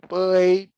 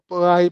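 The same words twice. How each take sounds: First: It is said with a rising pitch. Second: It is said with a high level pitch. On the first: "Segunda entonação" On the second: "Eu estou falando tudo, tudo somente na primeira entonação"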